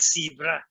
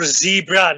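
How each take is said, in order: First: The word starts without a z sound. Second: The word starts with a z sound. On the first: The speaker calls it wrong. "not zebra" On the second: The speaker calls it right. "Or zebra"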